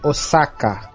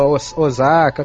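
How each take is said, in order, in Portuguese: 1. Fala-se do jeito japonês. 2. Fala-se do jeito brasileiro.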